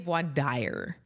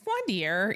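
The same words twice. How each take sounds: First: The second word rhymes with 'fire'. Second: The second word does not rhyme with 'fire'. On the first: The speaker calls it wrong. "a lot of people say voir dire. Um, because that's what it looks like in English" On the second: The speaker calls it right. "but it's not. So it's voir dire usually"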